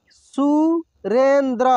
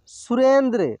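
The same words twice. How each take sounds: First: Surendra drawn out slowly, syllable by syllable; slow sounding out. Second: Said in the usual way. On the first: Shown as a demonstration. Teacher slowly sounds out Surendra for students. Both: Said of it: "एक एक मात्रा को अलग अलग करके".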